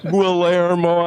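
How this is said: The name is said with English-speaker pronunciation. Someone unfamiliar with the name is saying it. The speaker calls it wrong. "they couldn't pronounce Guillermo"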